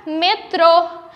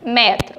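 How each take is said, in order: First: "metrô" with a closed e and the stress on the final ô. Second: "Metro" with an open, wide é in the first syllable. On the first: Teacher shows pupils the circumflex word, stress on ô. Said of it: "quando eu coloco o acento circunflexo". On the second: Teacher shows pupils the unaccented word, open é. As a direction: say "Metro" like mÉtro, the vowel open. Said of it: "Quando eu falo de metro". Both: Shown as a demonstration.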